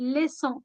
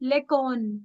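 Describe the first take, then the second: First: The middle consonant sounds like s. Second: The middle consonant sounds like k. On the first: The speaker calls it right. "it's leçon" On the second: The speaker calls it wrong. "It's never lecon"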